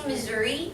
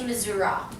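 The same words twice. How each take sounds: First: It is pronounced the general American way. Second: It is pronounced the local Missouri way. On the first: This is how most of the country says it. "we normally say Missouri over the U S" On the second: This is how people from the state say it. "locals in Missouri, they say Missouri"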